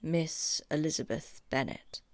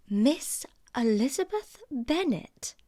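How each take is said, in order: First: Said in the usual way. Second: Higher, slow disbelieving echo; slow, higher shocked question; incredulous repeat. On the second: Acted. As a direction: repeat the name as if it's absurd. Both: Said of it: "repeated Miss Bingley".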